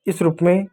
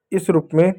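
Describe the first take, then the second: No difference in how they are said.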